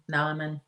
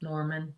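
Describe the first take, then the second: First: "Norman" as "Nahman", Boston style; tentative Boston try at "Norman"; attempted Boston accent. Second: Said in the usual way. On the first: Shown as a demonstration. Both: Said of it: "Am I saying that right?".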